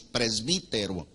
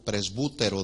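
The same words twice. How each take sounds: First: Said in the usual way. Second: Presbútero said with a stressed U, pres-BU-te-ro; presbútero, the original Greek form; Greek pronunciation. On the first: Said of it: "la palabra que conocemos". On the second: Shown as a demonstration. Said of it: "acento en la U".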